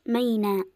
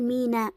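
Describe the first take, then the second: First: ميناء with fatha, the meem said ma as in maynāʾ; ميناء mispronounced maynāʾ, slowly; ميناء said with an a vowel, as in maynāʾ; wrong pronunciation. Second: ميناء with kasra, the meem said mi as in mīnāʾ; ميناء said mīnāʾ, short i on the first letter; ميناء pronounced mīnāʾ with an i vowel; correct pronunciation. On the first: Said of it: "مش ميناء". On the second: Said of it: "بكسر الميم". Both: Shown as a demonstration.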